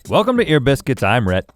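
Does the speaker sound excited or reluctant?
reluctant. The greeting sounds flat and reluctant. The speaker does not want to be here. "sound like you don't wanna be here"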